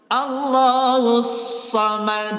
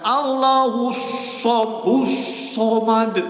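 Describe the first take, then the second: First: The 'sa' sound is said with unrounded lips. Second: The 'sa' sound is said with rounded lips. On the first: The speaker calls it right. "Shad itu fathah, jangan monyong" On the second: The speaker calls it wrong.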